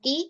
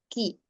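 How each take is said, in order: First: The ki is said plainly without breath. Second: The ki is said with audible breath. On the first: The speaker calls it wrong. "jangan ki ki bukan ki" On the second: The speaker calls it right. "tapi ada hamsnya"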